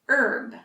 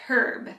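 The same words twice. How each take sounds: First: The word begins without any H sound. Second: The word begins with an audible H sound. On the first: "for Americans, the H is silent" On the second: "it looks like herb. And the British actually use herb"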